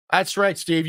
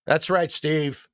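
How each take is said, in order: First: Said in the usual way. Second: Slow, savoring every word of That's right, Steve; slow drawn-out. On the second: Pretend.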